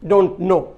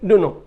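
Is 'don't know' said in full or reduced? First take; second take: full; reduced. First: It is said in full as two words. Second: It is reduced and run together into one word.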